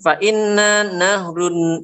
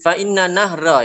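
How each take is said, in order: First: The last word ends with an -un sound. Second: The last word ends with an -a sound. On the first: The speaker calls it wrong. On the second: The speaker calls it right.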